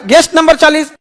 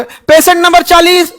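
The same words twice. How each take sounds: First: Said in the usual way. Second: Slower, higher roll-call of "पेशेंट नंबर चालीस"; calling out patient number. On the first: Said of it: "उसको कैसा लगे". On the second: Shown as a demonstration. Hospital staff calling a patient by number, drawn-out call. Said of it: "ऐसे बोलोगे".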